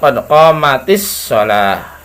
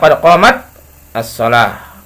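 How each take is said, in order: First: The t joins the next word with an i. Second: The t stops; 'as-shalah' begins separately. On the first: This is the form used in connected speech. "jadinya qad qamatis shalah" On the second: This is the underlying original form. "Asalnya qad qamat as-shalah"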